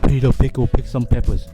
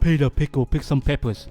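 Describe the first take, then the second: First: The P sounds make harsh popping bursts. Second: The P sounds are soft without popping bursts. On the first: The speaker calls it wrong. "so you hear the pop" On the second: The speaker calls it right. "now that should help with your plosive"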